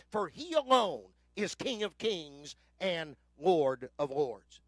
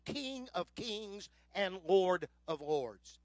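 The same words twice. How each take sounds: First: Slow and louder, ALONE stressed; slow, slightly louder preaching climax; emphatic declaration. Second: Drawn out, every word weighted; slow and solemn, letting each title land; slow, solemn proclamation. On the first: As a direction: lean hard on "alone", then drop low on "of Lords". Preacher's declaration of Christ's kingship. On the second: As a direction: majestic slow reading of the title. Climax of scripture reading. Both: Acted.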